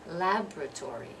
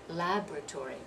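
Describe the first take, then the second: Both takes have the same delivery.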